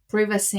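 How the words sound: The word is said with a British pronunciation. "privacy in U K"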